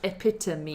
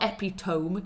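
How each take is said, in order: First: The final E is a separate syllable, giving four. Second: The final E is silent, giving three syllables. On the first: The speaker calls it right. "You've got to pronounce the E as a separate syllable" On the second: The speaker calls it wrong. "It's not epitome"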